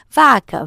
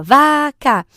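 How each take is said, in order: First: Said in the usual way. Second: "vaca" stretched into VA, CA; split into syllables. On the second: Shown as a demonstration. Breaking words with a child, "vaca" syllable by syllable. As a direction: break "vaca" into two long, even beats. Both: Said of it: "separa as palavras".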